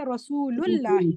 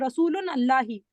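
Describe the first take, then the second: First: The -un ending drops and the words run together. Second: The first word keeps its -un ending before Allahi. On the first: The speaker calls it right. "You say Rasulullahi" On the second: The speaker calls it wrong. "You don't say Rasulun Allahi"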